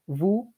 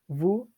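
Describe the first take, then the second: No difference in how they are said.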